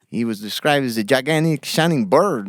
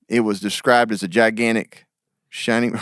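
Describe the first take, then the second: First: It is said in a put-on Mexican accent. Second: It is said in his own accent.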